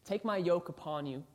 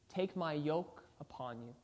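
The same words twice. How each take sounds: First: It is read at a quicker pace. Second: It is read at a slower pace.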